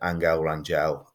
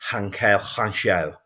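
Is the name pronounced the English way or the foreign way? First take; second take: English; foreign. First: The name is said with plain English sounds. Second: The name is said with foreign, throaty sounds. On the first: This is the local way to say the name. "it's just not a Derby way to say that. So I just said Angel Rangel" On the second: This is how the name's owner says it. "he said, it is Hankel Rangel"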